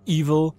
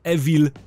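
First: The word is said with English pronunciation. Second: The word is read as spelled, Polish style. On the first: The speaker calls it right. "poprawna wymowa to Evil" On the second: The speaker calls it wrong. "ja to mówię Evil"

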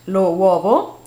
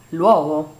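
First: The two words are said with separate vowels. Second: The two words merge into one linked word.

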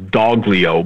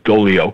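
First: A G sound is heard in the middle. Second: No G sound is heard in the middle. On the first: The speaker calls it wrong. "as though it was Doglio" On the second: The speaker calls it right. "the G is silent, so it's Dolio"

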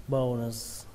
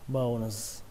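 Both takes have the same delivery.

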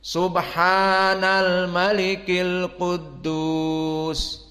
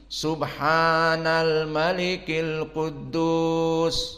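First: It is highest, longest and in a deep voice. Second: It is somewhat higher in pitch and fuller. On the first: "ketiga ditinggikan dan amplitudonya diperpanjang dan suaranya diperbesar" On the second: "kedua agak tinggi"

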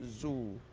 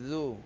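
First: It starts with a plain z sound. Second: It starts with a soft tongue-tip th sound. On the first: The speaker calls it wrong. "Jangan sebut zu. Jadi ikut zai" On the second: The speaker calls it right. "nipis hujung lidah"

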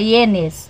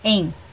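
First: The word is said in two syllables, ie-nes. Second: The word is said in one syllable, en. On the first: The speaker calls it wrong. "A gente fala ienes, mas não é" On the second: The speaker calls it right. "é em. E-N, em"

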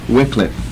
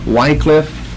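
First: The first vowel is a short I sound. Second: The first vowel is a long I sound. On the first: "and sometimes it's the short I" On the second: "Sometimes the long I"

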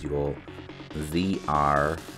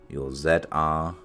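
First: It is said in an American accent. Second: It is said in a British accent.

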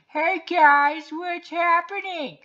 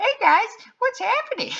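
First: It is a put-on voice like Carl. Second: It is a put-on voice like Simpsons' Ralph.

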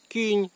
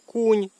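First: The vowel sounds like i. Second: The vowel sounds like u. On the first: This is how the Berezhany valley dialect says it. "у Бережанській долині то буде кінь" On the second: This is how the Uzh valley dialect says it. "в Ужанській долині то буде кунь"

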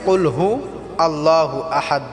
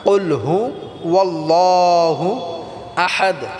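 First: Hu runs into allahu without a w sound. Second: A w sound joins hu to allahu. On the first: The speaker calls it wrong. "অনেকে আছি যে কুল হু আল্লাহু আহাদ বলি" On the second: The speaker calls it right. "আল্লাহু হবে না"

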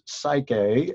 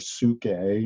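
First: It is said with an English pronunciation. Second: It is said with a Greek pronunciation.

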